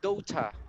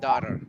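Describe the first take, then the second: First: It is said in a British accent. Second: It is said in an American accent. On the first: "in British, it sounds like daughter" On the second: "we are learning basically uh, American"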